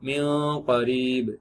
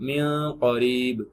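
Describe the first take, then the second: No difference in how they are said.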